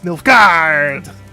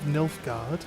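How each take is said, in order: First: The name is said with long, drawn-out A vowels. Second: The name is said with plain, quick vowels. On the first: The speaker calls it right. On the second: The speaker calls it wrong.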